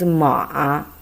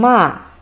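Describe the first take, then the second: First: It is said with the third tone. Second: It is said with the fourth tone. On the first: It means horse. "The third time is ma" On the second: It means to curse. "the fourth tongue"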